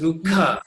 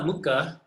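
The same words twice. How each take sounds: First: The k has a strong puff of breath. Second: The k is plain with no breath puff. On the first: The speaker calls it right. "it's Mukha" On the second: The speaker calls it wrong. "It's not Mukha"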